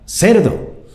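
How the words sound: It is said urgently, as an alarmed warning. A pig is coming, so watch out. "En la otra le, es una advertencia"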